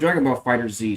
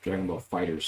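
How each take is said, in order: First: The last word is said as 'Fighter Z'. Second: The last word is said as 'Fighters'. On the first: The speaker calls it right. "sounds way better than Dragon Ball Fighters" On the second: The speaker calls it wrong. "sounds like ass to me"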